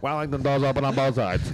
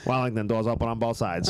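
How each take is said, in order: First: Robotic subway PA voice, a bit higher; automated announcement voice. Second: Automated train announcement voice. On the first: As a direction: announce it like a train speaker. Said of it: "it's like an automated voice". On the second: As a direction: read it like a subway PA. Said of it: "I do the announcement for Wellington". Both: Retold or imitated.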